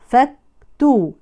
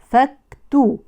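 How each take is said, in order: No difference in how they are said.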